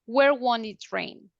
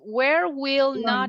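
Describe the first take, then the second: First: The words 'will not' are contracted to 'won't'. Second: The words 'will not' are said in full. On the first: "Contraction form"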